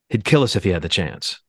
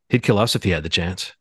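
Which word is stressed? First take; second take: kill; us. First: The stress falls on the word kill. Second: The stress falls on the word us.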